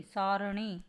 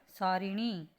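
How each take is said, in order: First: सारणी with no "i" after r; plain "ra" in the middle of सारणी; correct pronunciation. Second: सारिणी with "ri" in the middle; short "i" after r in सारिणी; wrong pronunciation. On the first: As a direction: say सारणी as saa-ra-ni. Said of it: "री नहीं". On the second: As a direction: say सारिणी as saa-ri-ni. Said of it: "सारिणी नहीं". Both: Shown as a demonstration.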